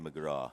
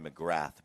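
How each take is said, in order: First: The name ends without a 'th' sound. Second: The name ends with a 'th' sound. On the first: This is how locals say it. "but here they say McGraw" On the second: This is how Americans say it. "us crazy Americans say McGrath"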